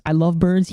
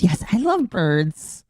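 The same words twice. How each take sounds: First: Said in the usual way. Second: Drawn-out robotic echo of the clip; slow mock text-to-speech voice. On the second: Streamer echoing the donation alert in a slow mock robot voice. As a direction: parrot the alert voice, slow and stiff.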